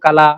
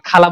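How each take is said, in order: First: The first sound is a plain k. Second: The first sound is a breathy kh. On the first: This is how people from the speaker's region say it. "ও কালা" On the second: This is the standard form of the word. "ওরা খালা বলে না"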